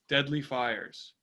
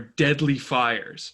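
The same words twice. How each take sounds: First: It is said flatly, without emotion. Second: It is said with strong emotional emphasis. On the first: The danger does not come across. The speaker calls it wrong. "he says deadly with no emotions voice" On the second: The danger comes across. The speaker calls it right. "If I say something's deadly, it's got to be deadly"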